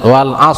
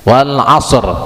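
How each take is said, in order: First: The final r is barely sounded at the end. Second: The final r is clearly sounded at the end. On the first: Listeners may think the word ends in the letter shad. The speaker calls it wrong. "yang baca yang kedua tadi" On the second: Listeners understand the word ends in the letter ra. The speaker calls it right. "tapi ro-nya jelas"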